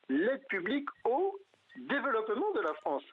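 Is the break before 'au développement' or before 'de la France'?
au développement. The phrase breaks before 'au développement'. It is aid meant to develop France itself. "ce qui est tout autre chose"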